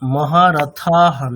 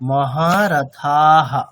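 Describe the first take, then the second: First: The vowel before the final ha is short. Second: The vowel before the final ha is long. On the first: The speaker calls it wrong. "মহারথাহা নয়" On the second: The speaker calls it right. "ওখানে দেখুন আকার আছে, তাহলে মহারথাহা এরকম"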